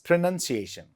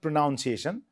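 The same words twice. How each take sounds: First: The second syllable sounds like 'nun'. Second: The second syllable sounds like 'noun'. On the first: The speaker calls it right. "It's pronunciation" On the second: The speaker calls it wrong. "then it's not pronunciation"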